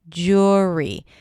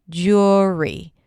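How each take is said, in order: First: The first vowel sounds like 'or'. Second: The same.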